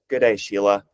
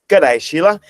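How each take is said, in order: First: It is said in a plain, unexaggerated accent. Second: It is said in an exaggerated Australian accent. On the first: The speaker calls it wrong. "it's like, no, no, no" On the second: The speaker calls it right. "Do the best you can with your worst accent"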